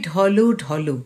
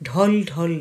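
First: Each word ends with a clear final vowel. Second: Each word ends on a bare consonant. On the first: The speaker calls it right. "যেখানে হসন্ত নেই সেটি কিন্তু আমাদের উচ্চারণ করতে হবে।" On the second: The speaker calls it wrong. "নয়"

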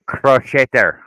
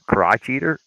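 First: It is said with a French-style pronunciation. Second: It is said like the two words 'crotch eater'. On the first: "It it it's French" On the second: "isn't that how you pronounce it?"

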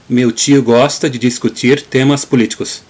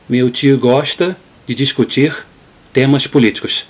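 First: It is said in a southern Brazilian accent. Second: It is said in a Rio de Janeiro accent. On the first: "using the Gaúcho pronunciation or Southern pronunciation" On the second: "in Carioca Portuguese"

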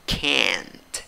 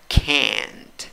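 No difference in how they are said.

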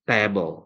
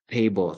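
First: It is said with a local Sundanese-influenced pronunciation. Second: It is said with a standard English pronunciation. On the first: The speaker calls it wrong. "tapi table gitu ya" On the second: The speaker calls it right. "nggak table"

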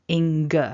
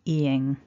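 First: The ending finishes with a hard g sound. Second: The ending finishes without a hard g sound. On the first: The speaker calls it wrong. "it's really important that you don't say ing. We don't want a g at the end" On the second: The speaker calls it right. "pronounced ing. Remember, there's no hard g at the end"

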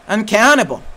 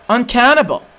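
The two takes are said the same way.

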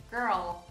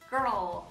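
Both takes have the same delivery.

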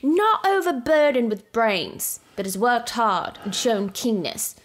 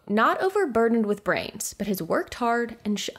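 First: It is read in a put-on British accent. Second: It is read in the speaker's own voice.

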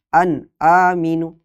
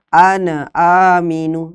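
First: The sound is cut off after the n. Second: The n bounces with an added vowel after it. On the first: "atau putus" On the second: "Atau dipantulkan"

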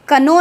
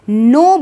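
First: A k sound is pronounced before the n. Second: The word starts directly with the n sound. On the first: The speaker calls it wrong. "कनो नहीं बोलते" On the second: The speaker calls it right. "नो बोलते हैं"

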